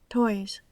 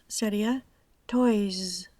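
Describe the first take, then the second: First: The final s is soft and very short. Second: The final s is fully voiced and buzzing. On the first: "un sonido suave y de corta duración" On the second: "Si pronuncio la S sonora con la voz"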